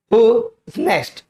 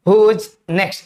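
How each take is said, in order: First: Drawn-out, carefully spaced model sentence; slow teaching demo. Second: Said in the usual way. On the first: Shown as a demonstration. Teacher slowly modelling who is next for students. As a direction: say it slowly so students can copy.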